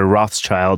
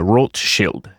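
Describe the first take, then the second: First: The name is pronounced the usual English way. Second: The name is pronounced the German way.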